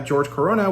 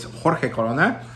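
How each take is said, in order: First: The first name sounds like English George. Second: The first name sounds like Spanish Jorge. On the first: The speaker calls it wrong. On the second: The speaker calls it right.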